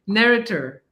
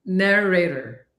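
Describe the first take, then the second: First: "Narrator" as NAIR-uh-ter, middle reduced; short-vowel pronunciation. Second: Slow "Narrator", NAIR-ay-ter; long-A pronunciation. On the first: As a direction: try "Narrator" with a quick uh in the middle. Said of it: "How do you say it?". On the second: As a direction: sound out "Narrator" slowly with a full AY. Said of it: "questioning how to say narrator". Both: Shown as a demonstration.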